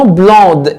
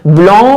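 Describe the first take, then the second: First: بلوند with the d clearly sounded at the end; feminine blonde. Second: بلون ending on a nasal vowel, no d sound; masculine blond. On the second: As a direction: say بلون with the final d silent. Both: Shown as a demonstration. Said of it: "زودنا الاو عشان في مينا".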